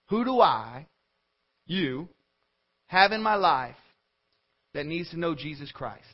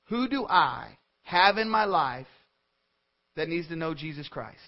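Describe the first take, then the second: First: It is said more slowly. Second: It is said at normal speed.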